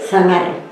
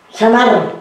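First: The first sound is a lisped th sound. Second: The first sound is a plain s sound. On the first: This is how the speaker says it now. "Yo digo sí" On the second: This is how people used to say it. "algo que antes decían"

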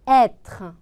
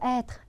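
First: The word is said with more force. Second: The word is said weakly and unclearly. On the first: The speaker calls it right. "조금 더 세게 발음을 해줘 보세요" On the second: The speaker calls it wrong. "être 이러신 분들은요"

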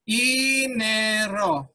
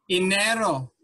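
First: It is broken into separate syllables. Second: It is said smoothly without breaks.

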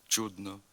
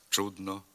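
Both takes have the same delivery.

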